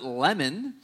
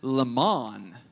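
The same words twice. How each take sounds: First: The stress is on the first syllable. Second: The stress is on the second syllable. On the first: "like the fruit" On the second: "It's like lemon, but the emphasis is reversed"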